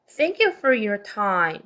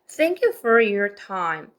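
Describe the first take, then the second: The two takes are said the same way.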